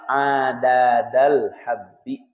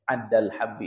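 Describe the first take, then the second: First: The two d sounds are pronounced separately. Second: The two d sounds merge into one. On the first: "Tadinya apa?" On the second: "Tapi di diidghamkan jadi apa?"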